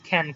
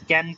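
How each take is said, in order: First: The k sound has a strong puff of air. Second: The k sound is plain, without a puff of air. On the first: The speaker calls it right. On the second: The speaker calls it wrong.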